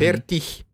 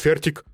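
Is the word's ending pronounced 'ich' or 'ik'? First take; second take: ich; ik. First: Standard German, the ending sounds like 'ich'. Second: Austrian German, the ending sounds like 'ik'.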